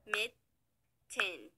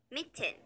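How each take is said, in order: First: "Mitten" split by a long pause; syllable by syllable. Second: Said in the usual way. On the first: Shown as a demonstration. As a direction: sound out "Mitten" as two separate syllables. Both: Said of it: "has two syllables".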